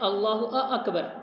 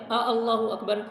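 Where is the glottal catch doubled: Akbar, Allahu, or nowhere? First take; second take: Akbar; Allahu. First: An extra glottal vowel comes before Akbar. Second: An extra glottal vowel comes before Allahu. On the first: It asks whether He is the greatest. "अकबर में जो हमज़ा उसको अगर आप डबल कर देते हैं" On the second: It asks whether God is the greatest. "इसका तर्जमा ये है क्या अल्लाह सबसे बड़ा है"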